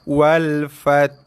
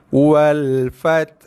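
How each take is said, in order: Both takes have the same delivery.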